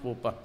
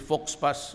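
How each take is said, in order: First: It is said the French way, letters silent. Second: It is said letter by letter, as spelled. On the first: The speaker calls it right. "it's pronounced faux pas" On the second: The speaker calls it wrong. "if you read it, then uh, it's a Fox Pass"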